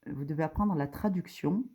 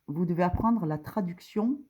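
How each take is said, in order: Both takes have the same delivery.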